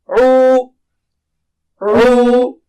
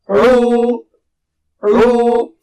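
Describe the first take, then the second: No difference in how they are said.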